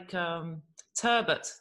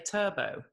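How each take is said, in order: First: The word ends with a clear t sound. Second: The word ends without any t sound. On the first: The speaker calls it right. "it's got a T on the end" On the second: The speaker calls it wrong. "People say turbo"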